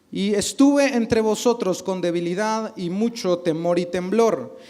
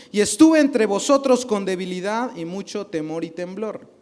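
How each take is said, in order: The two takes are said the same way.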